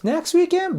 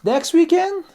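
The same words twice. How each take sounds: First: Much higher reluctant next weekend; polite reluctance. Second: Much higher, drawn-out next weekend; polite reluctance. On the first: Colleague politely dodging an invite, reluctant. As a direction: sound nice while not wanting to go. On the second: Colleague trying to be nice while declining, reluctant. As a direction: hide reluctance in a high polite question. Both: Shown as a demonstration. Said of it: "He's still trying to be nice".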